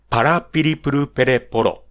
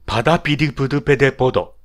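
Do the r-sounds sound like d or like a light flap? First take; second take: light flap; like d. First: The r sounds are light, clear tongue flaps. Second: Several r sounds come out like d sounds. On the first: The speaker calls it right. "正しいラ行は" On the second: The speaker calls it wrong. "ラ行が弱い人は"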